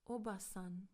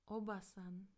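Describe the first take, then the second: No difference in how they are said.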